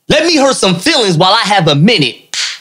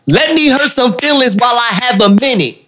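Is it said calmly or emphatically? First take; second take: calmly; emphatically. First: It is said in a calmer, plainer way. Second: It is said loudly with strong emphasis.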